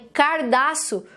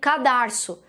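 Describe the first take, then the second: First: The r sound closes the first syllable. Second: The r sound closes the second syllable. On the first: The speaker calls it wrong. "quando os pais falam errado" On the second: The speaker calls it right. "ao invés de falarem cadarço"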